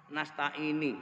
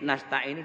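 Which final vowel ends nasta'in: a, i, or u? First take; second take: i; u. First: The word ends in an i vowel. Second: The word ends in a u vowel.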